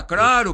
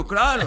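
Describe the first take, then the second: First: Claro said as craro, the l turned into a tapped r; mispronounced claro. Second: Claro said properly, with a clear l, higher and louder; correct claro. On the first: Recalling his speech problem, says claro as craro. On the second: The director corrects him, saying claro with a clear l. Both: Shown as a demonstration. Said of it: "eu falava claro, claro".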